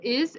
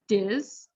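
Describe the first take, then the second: First: The word begins with a plain vowel sound. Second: The word begins with a linked D sound. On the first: "instead of is" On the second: "the T becomes a D sound and moves to the next word"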